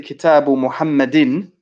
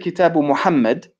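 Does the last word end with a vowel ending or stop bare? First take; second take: vowel ending; stops bare. First: The last word ends with an added -in sound. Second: The last word stops without any final vowel. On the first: The listener can tell the name is in the genitive case. The speaker calls it right. "if I say Kitabu Muhammadin" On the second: The listener cannot tell the grammatical case. The speaker calls it wrong. "if you say Kitabu Muhammad and stop"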